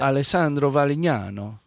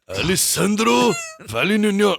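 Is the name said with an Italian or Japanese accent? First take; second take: Italian; Japanese. First: It is said with an Italian accent. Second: It is said with a Japanese accent. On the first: "put the Italian stink on it" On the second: "can you say it like a Japanese guy?"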